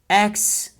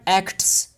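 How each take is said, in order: First: The t sound is dropped. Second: The t sound is clearly pronounced. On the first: "so we'll say acts" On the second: "not acts"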